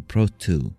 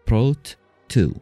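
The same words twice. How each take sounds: First: The two t sounds merge into one. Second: Each t sound is pronounced separately. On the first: The speaker calls it wrong. "ما تندمج الاثنين مع بعض، ما تصير بروت تو" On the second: The speaker calls it right. "الاثنين التي عندنا بروت وتو تنفصل"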